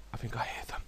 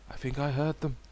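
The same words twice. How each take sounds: First: Quick, breathless whisper. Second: Said in the usual way. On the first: Real, not acted. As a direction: hush it so they won't hear. Sneaking near enemies.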